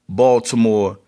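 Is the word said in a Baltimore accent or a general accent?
general. It is said in a general, non-local accent.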